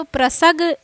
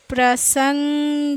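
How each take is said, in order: First: प्रसग said with no nasal, plain स then ग; wrong reading without nasal. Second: प्रसंग said slowly with a clear nasal ng on सं; teacher models प्रसंग slowly with the nasal ng; slow careful demo. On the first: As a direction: drop the nasal and say प्रसग flat. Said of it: "बिना अनुस्वार के पढ़ते तो प्रसग पढ़ा". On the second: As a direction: stretch प्रसंग syllable by syllable for pupils. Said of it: "देखिए इसमें प्र लिखे, सा लिखे". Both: Shown as a demonstration.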